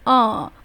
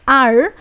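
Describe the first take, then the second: First: The letter name ends without an r sound. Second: The letter name ends with an r sound. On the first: The speaker calls it right. "We need to pronounce it as the R" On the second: The speaker calls it wrong. "we shouldn't include the R sound"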